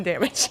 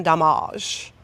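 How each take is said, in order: First: Said in the usual way. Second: "damage" said as "duh-MAHZH"; mock-fancy pronunciation. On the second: Player warning opponents of coming harm, "damage" as mock-French "duh-MAHZH". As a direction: rhyme the end of "damage" with "garage".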